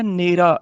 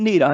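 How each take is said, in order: First: ਨੇਰਾ as in ਨੇੜੇ, near; word for "near". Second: ਨੇਰਾ said the rejected way, like "nera" for darkness; wrong vowel or stress. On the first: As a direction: give ਨੇਰਾ a clear long first vowel. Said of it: "ਇਹਨੂੰ ਪੜ੍ਹਨਾ ਨੇਰਾ". (ਨੇਰਾ, ਨੇੜੇ ਦੇ ਅਰਥ ਵਾਲਾ ਉਚਾਰਨ) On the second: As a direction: say ਨੇਰਾ as in ਹਨੇਰਾ. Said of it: "ਨੇਰਾ ਨਹੀਂ ਕਹਿਣਾ". (ਨੇਰਾ, ਹਨੇਰੇ ਵਾਂਗ) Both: Shown as a demonstration.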